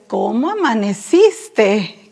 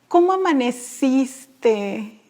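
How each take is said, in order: First: It is said in a weary, exasperated tone. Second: It is said in a sweet, loving tone.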